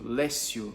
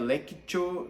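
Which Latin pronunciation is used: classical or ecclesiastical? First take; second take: ecclesiastical; classical. First: It uses the ecclesiastical Latin pronunciation. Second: It uses the classical Latin pronunciation. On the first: "A eclesiástica diria" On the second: "Já a clássica"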